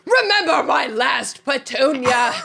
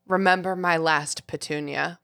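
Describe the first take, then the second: First: It is said in an exaggerated, ugly put-on voice. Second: It is read in a plain, ordinary voice. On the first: "Is that awful?" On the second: "The howler says"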